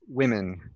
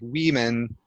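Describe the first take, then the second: First: The first vowel is a short i sound. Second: The first vowel is a long ee sound. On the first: The speaker calls it right. "but it's women" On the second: The speaker calls it wrong. "the first one sounded more like women"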